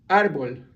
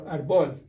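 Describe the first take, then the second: First: Árbol stressed on "ár", ÁR-bol; stress on first syllable. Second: Árbol wrongly stressed on "bol", ar-BOL; stress on last syllable. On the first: Teacher gives the word for tree, árbol stressed on "ár". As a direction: hit the opening of árbol hard. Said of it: "follow the stress mark". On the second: Teacher contrasts the wrong way, árbol stressed on "bol". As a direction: shift the weight to the end of árbol. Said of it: "instead of árbol". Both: Shown as a demonstration.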